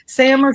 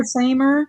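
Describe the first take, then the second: First: "Sammer" with the a of "Sam"; short-a pronunciation. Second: "Samer" with the a of "same"; long-a pronunciation. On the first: Host tries out a chat nickname, "Sammer" with short a. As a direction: say "Sammer" with a short, flat vowel as in "ham". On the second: Host tries out a chat nickname, "Samer" with long ay. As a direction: say "Samer" with a long ay vowel, rhyming with "tamer". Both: Shown as a demonstration.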